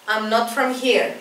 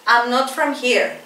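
The two takes are said the same way.

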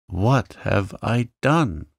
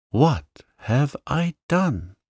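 First: Moaning. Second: Second moan pitched higher, slower; rising moan. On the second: Janet repeats her regret, higher and slower despairing moan. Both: A narrator's reading. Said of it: "moaned poor Janet".

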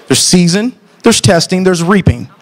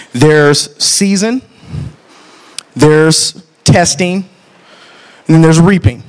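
First: Said in the usual way. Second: Season, testing, reaping, each drawn out slowly; slow preaching. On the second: Acted. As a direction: lay out each word slowly like a pulpit point. Preaching a three-part point.

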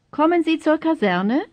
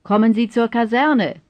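First: Higher pitch, sweeping up at the end of "Kaserne"; high question with a lifted end on "Kaserne"; question intonation. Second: Falling tune, voice dropping at "Kaserne"; firm falling end on "Kaserne"; statement intonation. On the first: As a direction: ask it, rising sharply on "Kaserne". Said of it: "then as questions". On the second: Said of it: "first as statements". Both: Shown as a demonstration.

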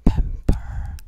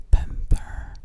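No difference in how they are said.

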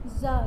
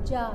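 First: जा said "zaa", buzzing z; dotted z sound. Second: जा with a hard j, as in jahaaz; plain j sound. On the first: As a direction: pronounce जा with z instead of j. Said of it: "उसके नीचे क्या लगा होता है". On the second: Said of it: "तब क्या बोलते हो". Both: Shown as a demonstration.

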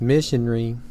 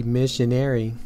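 First: Missionary said the English way, MISH-un-ree; British pronunciation. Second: Missionary said the US way, MISH-un-AIR-ee; American pronunciation. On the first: Lecturer showing how England says it, missionary as MISH-un-ree. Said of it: "In England, this is pronounced". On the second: Lecturer showing how the US says it, missionary as MISH-un-AIR-ee. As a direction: say missionary with a full AIR in the ending. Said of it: "in the U S it is said". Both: Shown as a demonstration.

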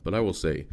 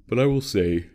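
First: Said in the usual way. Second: Said through a yawn. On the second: Real, not acted. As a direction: let a yawn stretch the words. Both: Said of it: "I keep yawning".

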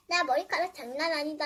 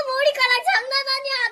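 First: Said in the usual way. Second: Higher and louder, with 장난 pushed and falling; loud retake. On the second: Pretend. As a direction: pump up the word 장난. Repeated line, louder. (장난을 크게 강조하며)

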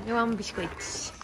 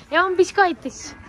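First: Soft voicing. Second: Cute horse voice. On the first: Owner voicing her horse's love of biscuits, quiet murmur. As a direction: murmur it under your breath for the horse. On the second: Pretend. Owner voicing her horse's love of biscuits, high cute voice. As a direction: squeal it as a cute little horse.

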